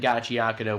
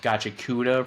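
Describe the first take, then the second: First: The name is said with five syllables. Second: The name is said with four syllables. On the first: The speaker calls it right. "we were under the impression that Gachiakuda was pronounced" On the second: The speaker calls it wrong. "was pronounced Gachikuda for the last couple weeks"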